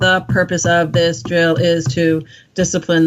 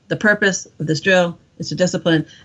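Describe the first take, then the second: First: Each word is read separately, one at a time. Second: The words are read together as one phrase. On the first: The speaker calls it wrong. "instead of it being one at a time" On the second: The speaker calls it right. "a thought"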